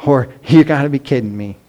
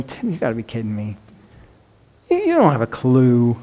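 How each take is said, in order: First: Said in the usual way. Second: Quick, much softer, half-muttered God's head-shake retort; lightly voiced exasperated God; mock God's voice. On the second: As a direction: play God gently shaking his head at Tim. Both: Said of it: "God's gotta be shaking his head going".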